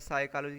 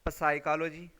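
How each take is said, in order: First: The word begins with an s sound. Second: The word begins with a sounded p. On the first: The speaker calls it right. "लेकिन हम इसे क्या पढ़ते हैं ... पी क्या है, silent है" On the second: The speaker calls it wrong. "इसको अगर हम लेटर की बेस पे पढ़ें तो क्या बनेगा"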